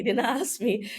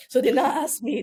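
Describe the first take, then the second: First: Said in the usual way. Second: A laugh breaking into the line; laughing through the words mid-phrase. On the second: Real, not acted. Guest recalling the pilots' offer, laughing.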